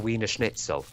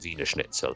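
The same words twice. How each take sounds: First: Wiener begins with an English W sound. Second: Wiener begins with a V sound. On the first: The speaker calls it wrong. "If someone gets something wrong" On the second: The speaker calls it right. "they pronounce W's as V's"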